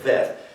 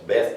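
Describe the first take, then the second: First: The word begins with a V sound. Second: The word begins with a B sound. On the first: "or for our V, as in very" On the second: "can be substituted for our B, as in boy"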